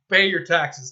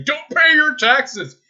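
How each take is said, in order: First: Said in the usual way. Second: High, loud and slow, each word drawn out; mock anti-tax rant. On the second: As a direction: ham up a tax-dodger's slogan. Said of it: "I'm not one of those people that say".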